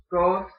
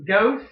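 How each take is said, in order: First: "ghost" with a pure, round Yooper "oh"; more rounded vowel. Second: Said in the usual way. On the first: Shown as a demonstration. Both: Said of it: "it's more round".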